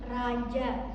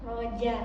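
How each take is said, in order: First: The first vowel sounds like a. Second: The first vowel sounds like o. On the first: This follows the Indonesian spelling. "kalau tulisan bahasa Indonesianya itu raja" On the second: This follows the Arabic reading. "huruf ra itu dibaca ro, jadi saya sebutkan roja"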